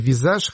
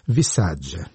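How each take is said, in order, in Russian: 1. Название заканчивается на мягкий звук 'zh'. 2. Название заканчивается на звук 'jee'. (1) "я думаю, что читается «Визаж»" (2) "по-итальянски было бы правильно сказать"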